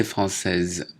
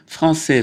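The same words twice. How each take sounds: First: Française ending in a voiced z sound; française with its last consonant heard; feminine pronunciation. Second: Français ending on an open è, silent s; français, high and crisply open-ended on è; masculine pronunciation. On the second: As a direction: say français without the final consonant. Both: Shown as a demonstration. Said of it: "prononciation différente".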